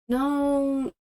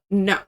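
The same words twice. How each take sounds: First: It is said softly and hesitantly. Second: It is said bluntly and firmly. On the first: The speaker is trying not to upset anyone. The speaker calls it wrong. "like a much more softer tone" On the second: The speaker is refusing without any doubt. The speaker calls it right. "like straight up"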